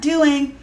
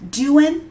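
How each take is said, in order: First: The final g sound is pronounced. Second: The final g sound is dropped. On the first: The speaker calls it wrong. "not doing" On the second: The speaker calls it right. "with an apostrophe, no G"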